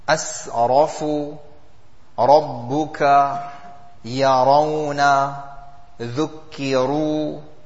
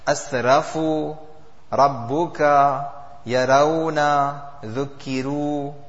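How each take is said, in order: First: The r is said heavy, with a full mouth. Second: The r is said light, with an empty mouth. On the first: The speaker calls it right. "these are examples of a full mouth" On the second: The speaker calls it wrong. "it's the same thing, but with an empty mouth"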